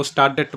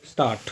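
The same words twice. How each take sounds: First: स्टार्टेड with an extra ड sound at the end; wrong d sounded. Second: स्टार्ट ending on a plain ट with no ड, said low; silent d in dt. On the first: Teacher imitating learners who sound the d. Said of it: "वो स्टार्टेड बोलते हैं". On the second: Teacher showing the silent d in Stadt. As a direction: finish स्टार्ट on a single ट. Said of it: "डी नहीं बोला जाएगा इसमें". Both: Shown as a demonstration.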